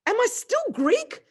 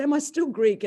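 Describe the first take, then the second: First: Much higher, louder and slow, in disbelief; shocked cry of Am I still Greek; stunned blurt. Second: Greek asked louder and higher but quicker, less stretched; retelling the question, a touch calmer; shocked repeat. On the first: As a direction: gasp it out, the world just tipped over. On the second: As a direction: say it again, still reeling, more matter-of-fact. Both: Retold or imitated. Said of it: "I was just shocked".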